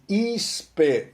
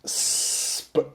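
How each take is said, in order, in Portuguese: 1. Uma vogal extra entra antes do s. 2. O s começa direto, sem vogal antes. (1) "Quer falar um I antes do S. Já começa errado aí" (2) "esse é o som do S P, não é isp"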